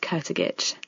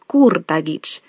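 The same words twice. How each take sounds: First: The name is said the anglicized English way. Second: The name is said the original Slovenian way. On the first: This is how the name is said now. "we've anglicized it now, and so it's Kurtagic" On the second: This is how the name was first said. "the original pronunciation of the name would be Kurtagic"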